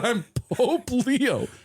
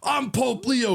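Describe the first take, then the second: First: It sounds earnest and a little helpless. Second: It sounds demanding and self-important. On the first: The caller is simply trying to prove who he is. The speaker calls it right. "He's just trying to be like, I don't know how to convince you that I am who I am" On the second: The caller is pulling rank to get his way. The speaker calls it wrong. "I don't think he's saying it with like a"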